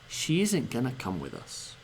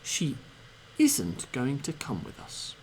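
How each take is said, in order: First: 'Going to' is squeezed together into 'gonna'. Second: Every sound of 'going to' is pronounced clearly.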